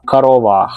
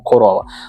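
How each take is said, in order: First: The unstressed first vowel sounds like a. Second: The unstressed first vowel sounds like o. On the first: The speaker calls it wrong. "Манера вимовляти ненаголошене О, як А" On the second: The speaker calls it right. "ми вимовляємо корова"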